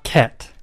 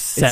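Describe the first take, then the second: First: The name begins with a hard K sound. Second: The name begins with a soft S sound. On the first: The speaker calls it wrong. "It is not Ket" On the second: The speaker calls it right. "It's Set"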